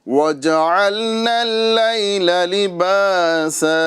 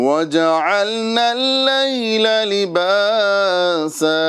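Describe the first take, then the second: The two takes are said the same way.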